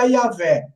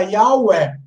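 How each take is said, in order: First: The middle consonant is a v sound. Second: The middle consonant is a w sound. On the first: "Se você pronunciar como V" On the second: "Se você pronunciar como U"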